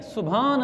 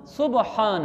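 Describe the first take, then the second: First: सुभान with a merged bh; wrong pronunciation. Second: सुबहान with ब and ह apart; correct pronunciation. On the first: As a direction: say सुभान in two beats, su-bhaan. (सुभान, भ के साथ गलत अदायगी) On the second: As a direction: say सुबहान as su-ba-haan. (सुबहान, ब के बाद अलग ह) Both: Shown as a demonstration. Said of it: "सीन बे आगे भे नहीं है".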